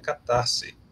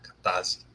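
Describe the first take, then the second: First: The s is pronounced as a hissing S sound. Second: The s is pronounced as a buzzing Z sound. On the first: The speaker calls it right. "o S nem sempre tem som de Z, tem som de S também" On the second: The speaker calls it wrong. "Por que que vocês falam com Z?"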